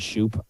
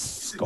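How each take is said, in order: First: The surname is said like 'Shoup'. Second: The surname is said like 'Scope'. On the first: This is how the speaker usually says it. "I say" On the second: This is reportedly the name's actual pronunciation. "apparently, it's Scope"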